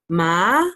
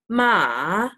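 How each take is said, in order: First: The pitch rises upward. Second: The pitch dips down then rises. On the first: "the second one is kind of like an up tone" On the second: "The third one is a dip. So it's like a"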